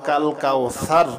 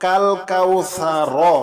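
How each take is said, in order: First: The word ends sharply on the r consonant. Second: The word ends with a vowel after the r. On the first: The reader stops at this word. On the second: The reading continues without stopping.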